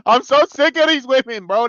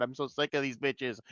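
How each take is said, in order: First: Higher and louder, fed up; exasperated outburst. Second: Softer, under the breath; muttered complaint. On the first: Fed-up viewer bursts out louder about the female characters. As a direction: blow up in frustration. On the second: Fed-up viewer mutters his complaint about the characters quietly. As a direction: grumble it to yourself, soft. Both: Real, not acted.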